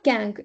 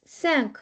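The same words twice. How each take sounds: First: "cank" starting with a k sound; hard c error. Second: "cinq" starting with an s sound; soft c. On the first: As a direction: mispronounce French cinq as "cank", k first. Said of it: "No, it's not cank". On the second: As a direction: say French "cinq" with s first, k last. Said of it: "it's cinq". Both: Shown as a demonstration.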